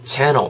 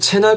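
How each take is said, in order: First: The word is said with English pronunciation. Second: The word is said as a Korean loanword. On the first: The speaker calls it right. "얘네는 발음이 channel 이렇게 되죠" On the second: The speaker calls it wrong. "우리는 채널 하는데"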